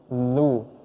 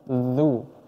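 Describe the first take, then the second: Both takes have the same delivery.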